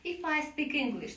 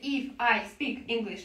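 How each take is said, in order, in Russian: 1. Слова плавно связаны в один поток. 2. Каждое слово произносится отдельно, не связано с другим. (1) "вы соединили все слова вместе" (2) "вы не говорите"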